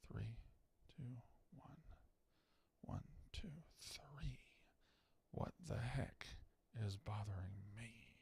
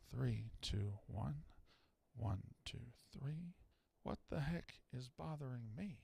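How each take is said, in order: First: Breathy whisper with no voice at all; whispered mic check. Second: Counting low and soft under the breath; quiet mic check. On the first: Host tests the mic, counting in a whisper. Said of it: "mic check counting, whispered". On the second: Host tests the mic, counting quietly. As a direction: murmur the count gently, barely voiced. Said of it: "mic check counting, softer". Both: Shown as a demonstration.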